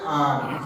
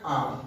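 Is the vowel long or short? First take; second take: long; short. First: The vowel is drawn out and held longer. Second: The vowel is short and not drawn out. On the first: "मद लगने से थोड़ा खींच के पढ़ते हैं" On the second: "अलिफ में आ"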